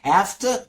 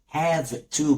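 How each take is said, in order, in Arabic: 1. تُربط الكلمتان ببعضهما بسرعة وتُختصران. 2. تُقال الكلمتان كاملتين ومنفصلتين.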